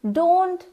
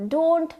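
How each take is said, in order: Both takes have the same delivery.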